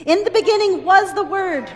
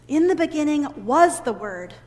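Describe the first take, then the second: First: Louder and higher, leading the group; loud call to repeat. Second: Said in the usual way. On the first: Shown as a demonstration. Teacher calling the verse out loud for the children to repeat. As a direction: call the verse out for all to echo. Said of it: "Will you repeat after me?". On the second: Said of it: "may we remember these words".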